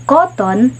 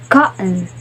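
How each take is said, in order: First: Said in the usual way. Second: Cotton with the t swallowed as a glottal stop. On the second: Shown as a demonstration. Teacher showing the glottal-stop cotton. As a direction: say cotton as "co'on", t caught in the throat. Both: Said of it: "they say cotton".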